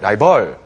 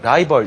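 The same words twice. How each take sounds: First: The stress is on the second syllable. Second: The stress is on the first syllable. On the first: The speaker calls it wrong. "이렇게 강세가 틀려버리면" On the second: The speaker calls it right. "강세가 원래 rival이라는 단어가 앞에 들어가거든요"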